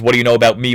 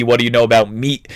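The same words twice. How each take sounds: First: "me" left open on the vowel; plain voice, open-ended "me"; me without t. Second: "meat" closed with a final t; plain voice, t-ending "meat". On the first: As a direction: end on "me" with no final consonant. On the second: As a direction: end on "meat", adding the t. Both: Shown as a demonstration. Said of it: "whether this French guy says".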